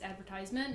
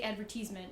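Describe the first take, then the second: First: It is said the American way. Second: It is said the British way. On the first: This is how the students insisted it was said. "arguing with her that it's advertisement" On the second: This is how the teacher said it. "she would say advertisement"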